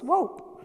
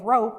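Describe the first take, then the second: First: The word begins with a W sound. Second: The word begins with a clear R sound. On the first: "his R sound was like a W" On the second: "instead of rope"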